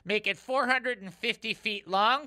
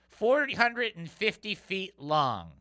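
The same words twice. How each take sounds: First: Said in the usual way. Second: "Four hundred and fifty feet long" said slowly, each number weighed; slow emphatic repeat. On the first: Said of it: "Can we say that again". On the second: Shown as a demonstration. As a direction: let the size of "Four hundred and fifty" sink in. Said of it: "Can we say that again, please?".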